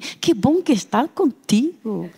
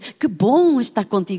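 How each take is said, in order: First: It is spoken with a Brazilian Portuguese accent. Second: It is spoken with a harder European Portuguese accent. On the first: "Se fosse brasileiro, eu também gosto muito daquele sotaque" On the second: "Se formos nós, dizemos ... A nossa língua é mais dura"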